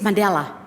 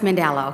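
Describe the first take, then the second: First: It is said with a South African accent. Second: It is said with an American-sounding accent. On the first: This is how people at home say it. The speaker calls it right. "it's Mandela" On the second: This shows an accent picked up abroad. The speaker calls it wrong. "It's not Mandela"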